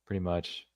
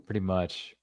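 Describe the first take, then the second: No difference in how they are said.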